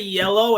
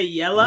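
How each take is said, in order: First: The word ends in a clear 'oh' sound. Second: The word ends in a short 'uh' sound. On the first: This is how people elsewhere say it. "They don't say yellow" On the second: This is how people in the South say it. "they say yella"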